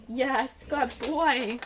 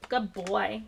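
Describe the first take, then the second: First: Slow, drawn-out praise for a puppy. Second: Said in the usual way. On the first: Real, not acted. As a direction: coo it slowly to a pet. Talking to her dog Milo.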